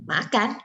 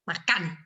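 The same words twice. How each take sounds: First: Said as a surprised, disbelieving question. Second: Said sharply, like an angry command. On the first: Expresses disbelief that they will eat. "It's like, "What? We will eat?"" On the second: Eat, now, as an angry order. "kayak kita marah gitu"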